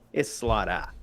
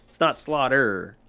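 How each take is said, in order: First: The R is dropped, in a Maine accent. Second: The R after the vowel is pronounced.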